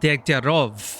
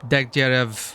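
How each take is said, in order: First: The last syllable sounds like 'rov'. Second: The last syllable sounds like 'rev'. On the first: The speaker calls it right. "they've been calling him Degtyarov" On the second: The speaker calls it wrong. "I- I've been pronouncing it wrongly. It's spelled Degtyarev"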